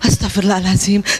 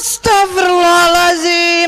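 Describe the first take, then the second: First: It is said in a soft, pleasant way. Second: It is said in a harsh, unpleasant way.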